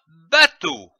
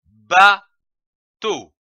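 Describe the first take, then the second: First: Said in the usual way. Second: "bateau" in two separate syllables, long pause between; split into syllables. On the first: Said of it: "donne le mot". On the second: Shown as a demonstration. Teacher joining syllables for learners, "bateau" broken in two. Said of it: "L'association de ces syllabes".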